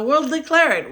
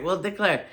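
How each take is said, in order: First: Louder and higher, declaring it with a punch on declare; emphatic declaration. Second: Said in the usual way. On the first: Real, not acted. Telling subscribers they'll find a home, loud and emphatic. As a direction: proclaim it like a triumphant vow. Excited about new house.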